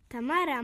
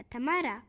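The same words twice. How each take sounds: First: Trembling voice. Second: Calling out. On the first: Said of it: "powiedział drżącym głosem Guciu". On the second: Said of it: "zawołał Gu-, Guciu". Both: A narrator's reading.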